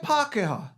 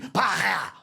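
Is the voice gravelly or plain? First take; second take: plain; gravelly. First: The word is said in a plain, smooth voice. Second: The word is said in a rough, gravelly voice. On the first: It refers to friendly European people. "That's cool" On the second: It refers to European people who do you wrong. "you need to put a little bit of gravel in the voice"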